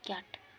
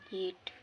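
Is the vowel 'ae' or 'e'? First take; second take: ae; e. First: The vowel sounds like 'ae'. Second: The vowel sounds like 'e'. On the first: The speaker calls it wrong. "सब पढ़ना उच्चारण में कैट" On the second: The speaker calls it right. "सही उच्चारण केट"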